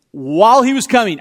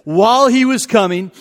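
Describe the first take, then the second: First: While punched loud, falling to coming; stress on While. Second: Said in the usual way. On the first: Shown as a demonstration. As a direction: lean hard on While before he was coming.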